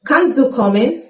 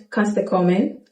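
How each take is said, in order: First: Kannst du kommen said clearly; careful Kannst du kommen; full form. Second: Du in kannst du kommen slurred to a short schwa; reduced form. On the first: Teacher gives the full form. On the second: Teacher shows the spoken form. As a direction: quieter casual kannst du kommen. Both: Shown as a demonstration.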